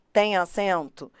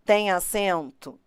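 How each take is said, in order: Both takes have the same delivery.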